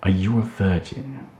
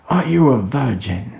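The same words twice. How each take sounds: First: Growled. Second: Higher, louder shout in his face; shouted question. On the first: A narrator's reading. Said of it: "growled Kelston". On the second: Acted. Kelston repeating his question at Tim, shouting. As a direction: bellow the question right at him. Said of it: "Kelston shouted in his face".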